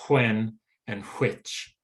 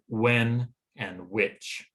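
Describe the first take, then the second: First: The words begin with a breathy hw sound. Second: The words begin with a plain w sound. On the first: "instead of" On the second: "pronounce the W H sound just as a W sound"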